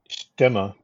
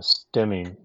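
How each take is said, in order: First: The name is given its German pronunciation. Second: The name is given an anglicized pronunciation. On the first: This is how it is properly said in German. "the proper pronunciation of STEMME in German is STEMA" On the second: This is how the maker now says it. "even the factory calls the airplane a STEMI nowadays"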